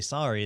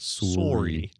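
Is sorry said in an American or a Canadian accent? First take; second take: American; Canadian. First: Sorry is said with an American vowel. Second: Sorry is said with a Canadian vowel. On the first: "they don't say sorry" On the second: "because of accents, they say sorry"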